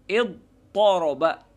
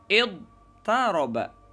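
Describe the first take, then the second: First: The t sound is emphatic and heavy. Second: The t sound is plain and unemphatic. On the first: The t has been replaced by its emphatic counterpart. "Boleh juga kita ganti taknya itu dengan to" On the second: This is the original pattern form. "Karena ini memang asalnya seperti itu"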